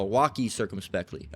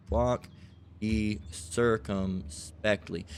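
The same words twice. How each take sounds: First: Said in the usual way. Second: "Walk ye circumspectly" drawn out with pauses between words; slow, spaced emphasis. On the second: Shown as a demonstration. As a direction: spell out "Walk ye circumspectly" very slowly, word by word. Repeats the phrase word by word.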